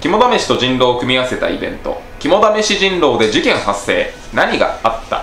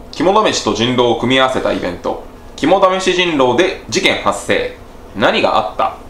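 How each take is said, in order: No difference in how they are said.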